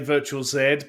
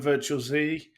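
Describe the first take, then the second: First: The letter is said the British way. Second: The letter is said the non-British way. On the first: This is how someone from the UK says it. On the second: This is how the company says its name.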